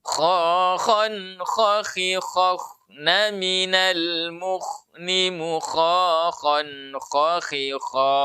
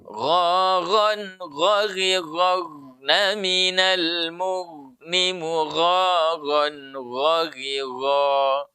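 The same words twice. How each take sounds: First: KHA, KHAN, KHI chanted slowly with raspy, breathy kh; latihan huruf kha. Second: GHARAN, GHARIRAGNA drawn out very slowly with thick voiced gh; latihan huruf ghain. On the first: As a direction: draw out the drill, each kh a strong throat friction. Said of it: "kemudian kalau kha". (latihan kha, dilantunkan perlahan) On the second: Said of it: "Latihannya bagaimana". (latihan ghain, dilantunkan perlahan) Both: Shown as a demonstration.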